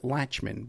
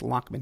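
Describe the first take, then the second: First: The middle consonant sounds like 'ch'. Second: The middle consonant sounds like 'k'. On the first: The speaker calls it wrong. "Some people might pronounce it" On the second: The speaker calls it right. "but it's Lockman he likes"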